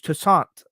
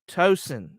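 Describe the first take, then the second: First: The name is said like 'Toussaint'. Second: The name is said like 'Tosin'. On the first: The speaker calls it right. "there's Toussaint" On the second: The speaker calls it wrong. "It's not Tosin"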